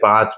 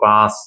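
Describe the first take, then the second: First: The final consonant is a 'ch' sound. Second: The final consonant is an 's' sound. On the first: The speaker calls it right. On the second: The speaker calls it wrong.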